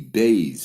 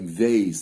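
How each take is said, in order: First: The word begins with a B sound. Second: The word begins with a V sound. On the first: The letter has a dot in it. "With a dot, it's pronounced like a B" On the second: The letter has no dot in it. "Without a dot, it's pronounced like vase, like a V"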